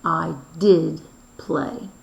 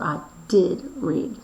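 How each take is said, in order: First: "did" stretched and rising, slow; stress on did. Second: "did" given a falling stress. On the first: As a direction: lean on "did" slowly. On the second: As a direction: land firmly on "did". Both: Shown as a demonstration. Teacher showing past tense to class, stress on did. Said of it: "Or it might say".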